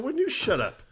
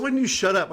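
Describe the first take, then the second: First: Echoed back much higher; mocking echo. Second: Quoted much higher; squeaky mock retort. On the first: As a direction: throw it right back, squeaky. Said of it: "I said". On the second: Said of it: "He said".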